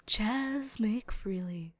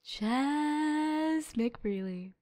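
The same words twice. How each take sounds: First: Slow, soft whispered name; defeated whisper. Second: Very slow, soft, dragged-out name; drawn-out disappointment. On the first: Disappointed reveal, whispered. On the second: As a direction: let the name sag in dismay. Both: Real, not acted.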